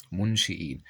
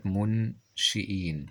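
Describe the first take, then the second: First: Said in the usual way. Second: Slow منشئين, split into syllables; sounded out. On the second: Shown as a demonstration. Teacher introducing a spelling word, منشئين slowly syllabified. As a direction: break منشئين apart, lengthening the ending.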